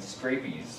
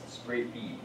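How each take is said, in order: First: The word ends with an added s sound. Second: The word ends without any s sound. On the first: The speaker calls it wrong. "they always are saying scrapies" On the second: The speaker calls it right. "no, it's scrapie"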